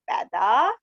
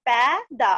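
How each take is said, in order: First: "पैदा" blended, rising at the end; joined word. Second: "पै... दा" with a gap between; syllable by syllable. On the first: Teacher completing the word for class, "पैदा" joined up. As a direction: run "पैदा" together as one word. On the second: Teacher reading matra words to class, "पै - दा" split. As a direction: break "पैदा" into two syllables. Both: Shown as a demonstration. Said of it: "इस तरह से read करेंगे".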